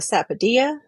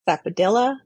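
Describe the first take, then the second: First: The double L sounds like a Y. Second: The double L sounds like an L. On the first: "It's dia because it's Spanish pronunciation" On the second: "people will say, because they'll say the ya with the L sound"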